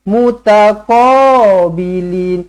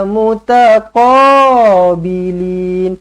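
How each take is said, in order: No difference in how they are said.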